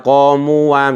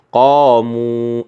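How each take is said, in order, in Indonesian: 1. Ada bunyi tambahan wa setelah u panjang. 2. Kata ini berakhir pada u panjang. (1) "nggak boleh" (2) "alifnya dilepas ya, dibaca panjang"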